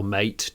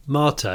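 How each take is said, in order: First: "Mate" said like English mate; alternative name pronunciation. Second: "Mate" said as MAR-tay; alternative name pronunciation. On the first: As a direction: say "Mate" as one syllable rhyming with late. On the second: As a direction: say "Mate" in two syllables, long ah then tay. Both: Shown as a demonstration. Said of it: "depending on how you say his name".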